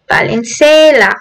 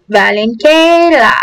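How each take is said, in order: First: "Valenzuela" with a soft s, va-len-SAY-la; soft s pronunciation. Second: "Valenzuela" with a hard k, va-len-KAY-la; hard k pronunciation. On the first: Gamer retrying a city name, "Valenzuela" pronounced with an s. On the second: Gamer giving viewers the goal, "Valenzuela" pronounced with a k. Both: Shown as a demonstration. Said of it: "however you pronounce it".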